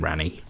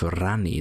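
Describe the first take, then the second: First: The R at the start is plain. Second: The R at the start is rolled. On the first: "instead of saying Rani" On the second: "Apologies for saying like that. I just think it sounds cooler"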